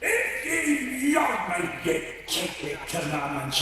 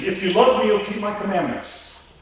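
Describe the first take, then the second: First: It is read in a put-on pirate voice. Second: It is read in a plain, natural voice.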